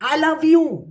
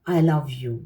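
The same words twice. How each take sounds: First: The phrase is said very loudly, almost shouted. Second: The phrase is said softly and calmly. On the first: This energy is not mine. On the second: This is my energy.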